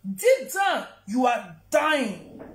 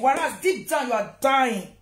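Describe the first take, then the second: First: Repeats "Deep down, you are dying" slowly, with "you are dying" drawn out; slow emphatic repeat. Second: Said in the usual way. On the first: Shown as a demonstration. To the absent mother online, a slow pointed repeat. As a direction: lean on it slowly the second time, letting "dying" land.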